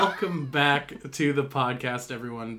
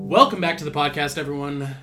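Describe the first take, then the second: First: It is said at a normal, calmer volume. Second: It is said very loudly, almost yelled.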